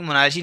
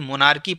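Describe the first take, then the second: First: The consonant after 'monar' is a 'ch' sound. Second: The consonant after 'monar' is a 'k' sound. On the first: The speaker calls it wrong. "मोनार्ची नहीं" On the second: The speaker calls it right. "मोनार्की पढ़ेंगे, क्योंकि एच silent रहता है"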